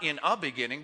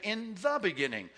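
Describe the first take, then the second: First: "a" as a plain unstressed article, level voice; stress on A. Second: "the" raised high and stretched as "thuh"; stress on THE. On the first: Teacher showing class the wrong article, lightly stressing "a". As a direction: say "a" as the indefinite article, evenly. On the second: Teacher correcting the article for the class, "the" stressed high. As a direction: lift and lean on the word "the". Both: Shown as a demonstration.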